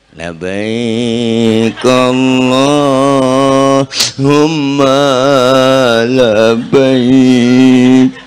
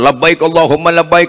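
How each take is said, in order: First: It is said in a weepy, crying voice. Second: It is said with eager, lively energy.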